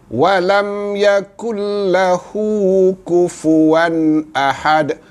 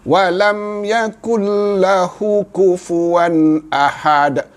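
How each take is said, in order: First: The 'hu' vowel is held two beats. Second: The 'hu' vowel is cut short. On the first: The speaker calls it right. "Kena baca dia" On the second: The speaker calls it wrong. "membacanya dengan tidak ada mad"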